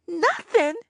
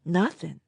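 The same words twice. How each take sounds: First: "Nothing" much higher, wailing, falling; wailed. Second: Said in the usual way. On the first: A narrator's reading. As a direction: wail "Nothing" in dismay. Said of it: "I wailed".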